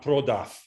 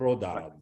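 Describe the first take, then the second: First: The word ends with a voiceless f sound. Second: The word ends with a voiced v sound. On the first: The speaker calls it wrong. "That's not prodaf" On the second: The speaker calls it right. "voiced consonants stay voiced at the ends of words"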